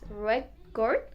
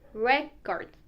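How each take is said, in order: First: The stress is on the second syllable. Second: The stress is on the first syllable.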